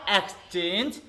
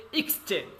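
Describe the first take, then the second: First: "exchange" opening with a clear EKS, drawn out; wrong pronunciation. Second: "exchange" opening with IKS; dictionary pronunciation. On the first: Teacher warning class off a mistake, "exchange" wrongly begun with "eks". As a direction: start "exchange" on an open "eks", voice left hanging. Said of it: "not exchange". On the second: Teacher modelling for class, "exchange" correctly begun with "iks". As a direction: start "exchange" on a short "iks", ending on a fall. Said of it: "you have to say exchange". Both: Shown as a demonstration.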